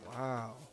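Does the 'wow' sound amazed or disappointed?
disappointed. It sounds disappointed and let down.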